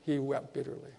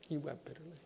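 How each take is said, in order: First: Said in the usual way. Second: Hushed repeat. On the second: Acted. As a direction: drop to a near-hush on the repeat. Second take, much softer.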